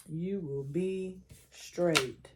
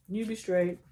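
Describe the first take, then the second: First: Very slow, each word spaced, stress on "be"; slow emphatic reassurance. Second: Said in the usual way. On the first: Real, not acted. Reader correcting herself to reassure the querent, slow and emphatic. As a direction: lean on "be" and draw "You will be straight" out slowly.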